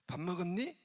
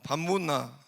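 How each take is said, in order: First: It is said in Seoul dialect. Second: It is said in Gyeongsang dialect.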